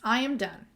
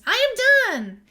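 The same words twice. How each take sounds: First: It is said as a plain statement. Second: It is said with excitement.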